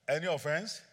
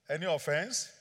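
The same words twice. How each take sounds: The two takes are said the same way.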